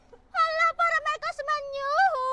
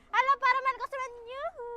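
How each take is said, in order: First: The final yuhu is drawn out long. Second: The final yuhu is said short.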